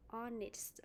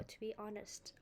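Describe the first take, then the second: First: "honest" as ON-ist, silent h; teacher's example of "honest", ending -ist; pronunciation demo. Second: "honest" as ON-uhst, silent h; teacher's other version of "honest", ending -uhst; alternative pronunciation. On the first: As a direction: model "honest" with a short i in the ending. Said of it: "one more word". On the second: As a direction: model "honest" with a schwa in the ending. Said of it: "or to be honest". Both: Shown as a demonstration.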